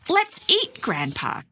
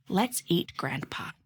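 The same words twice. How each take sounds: First: Let's eat, pause, grandpa, high and slow; pause at the comma. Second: Said in the usual way. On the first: Shown as a demonstration. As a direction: set grandpa apart after a clear comma pause. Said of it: "or were we really trying to say". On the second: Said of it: "Do we really want to eat grandpa".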